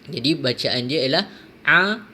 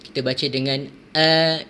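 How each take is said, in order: First: The vowel starts with a pressed throat squeeze. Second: The vowel starts with a plain glottal stop. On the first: "untuk ain, kita perlu tekan sedikit" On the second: "untuk hamzah berada di tingkatan yang paling bawah"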